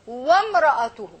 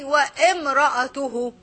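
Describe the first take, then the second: First: Wa links straight into mra with no vowel. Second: An extra i vowel comes before mra. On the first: The speaker calls it right. "So I said" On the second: The speaker calls it wrong. "I didn't say, ... I cannot say, ... because there is no hamza"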